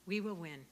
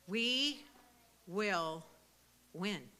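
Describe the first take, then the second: First: Said in the usual way. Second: WE, WILL, WIN, each set apart by a long pause; we... will... win, every word its own beat; word-by-word emphasis. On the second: Real, not acted. Speaker rallies supporters after crediting God and hard work, word-by-word emphasis. Rallying declaration to the audience.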